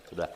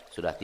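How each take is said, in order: No difference in how they are said.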